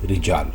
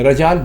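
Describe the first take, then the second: First: The first vowel is a short i. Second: The first vowel is a short a. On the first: The speaker calls it right. "दुरुस्त लफ्ज़ है रिजाल" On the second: The speaker calls it wrong. "रजाल बिल्कुल गलत है"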